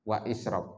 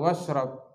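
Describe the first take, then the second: First: The words are separated by a glottal stop. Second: The words are joined with no glottal stop. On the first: The speaker calls it wrong. "Antum mengkotok" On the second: The speaker calls it right. "Jadi bacanya diwasal"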